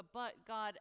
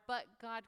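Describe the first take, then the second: First: "but God" as a firm statement, falling in pitch; exclamation. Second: "but God" as a question, lifting in pitch. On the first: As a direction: land "but God" with a decisive downward tune. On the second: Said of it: "question mark". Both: Shown as a demonstration.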